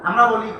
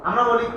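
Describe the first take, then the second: Both takes have the same delivery.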